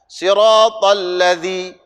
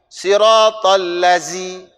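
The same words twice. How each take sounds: No difference in how they are said.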